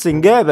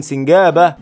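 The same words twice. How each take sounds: First: Said in the usual way. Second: Laughing shout. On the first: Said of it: "laugh shout". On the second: Real, not acted. Gamer spots the squirrel and shouts it laughing. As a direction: burst out laughing as you shout it.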